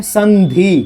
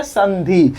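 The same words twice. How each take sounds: First: संधि drawn out as "san-dhee" with a clear n; careful reading. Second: Said in the usual way. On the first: Shown as a demonstration. Teacher shows how the word is read, careful pronunciation. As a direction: split संधि into two measured parts, n then dhee. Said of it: "हम लोग क्या पढ़ते हैं". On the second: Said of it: "क्या पढ़ते हैं".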